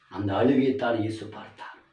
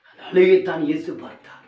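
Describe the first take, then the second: First: Said in the usual way. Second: அழுகையைத்தான் said higher and louder; louder emphatic repeat. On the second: Shown as a demonstration. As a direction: drive the point home. (அழுத்தமான உரத்த மறுபடி)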